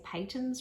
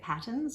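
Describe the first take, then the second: First: The word does not sound like 'patterns'. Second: The word sounds like 'patterns'. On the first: The speaker calls it right. "I actually used to say patons wrong" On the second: The speaker calls it wrong. "I used to say it patterns until I was corrected"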